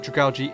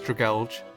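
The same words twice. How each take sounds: First: The ending sounds like the word algae. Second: The ending sounds like the word gouge. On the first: The speaker calls it right. "it turns out that Dragalge is the correct pronunciation, since its name is a combination of dragon and algae" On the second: The speaker calls it wrong. "This part of the name is spelt out as Gouge, which is probably why some people pronounce it as"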